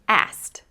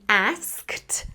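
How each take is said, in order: First: The k sound is dropped before the t. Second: The k sound is pronounced before the t. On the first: "I can just say asked" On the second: "instead of saying asked"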